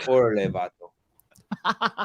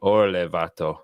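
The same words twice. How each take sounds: First: Slow, drawn-out Spanish slang; Mexican Spanish accent. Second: Spanish slang in an Irish-tinged accent; Mexican Spanish accent. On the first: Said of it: "Spanish accent". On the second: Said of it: "Say it again". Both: Shown as a demonstration.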